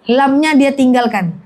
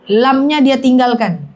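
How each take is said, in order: Both takes have the same delivery.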